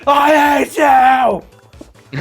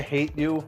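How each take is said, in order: First: It is said with Anakin Skywalker's dramatic anger. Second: It is said casually and calmly.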